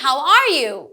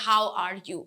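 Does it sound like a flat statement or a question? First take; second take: question; flat statement. First: It is said with a questioning tune. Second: It is said flatly, without a question tune. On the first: The speaker calls it right. "যেহেতু এগুলো question হচ্ছে, so কোয়েশ্চেনের সময় টোনটা সেরকম হবে।" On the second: The speaker calls it wrong. "আমি যদি how are you এভাবে বলি, no, this is not how you say"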